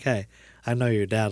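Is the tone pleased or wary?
pleased. It sounds warm and pleased.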